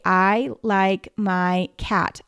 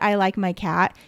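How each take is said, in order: First: The words are slow, with pauses between them. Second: The words run together without pauses.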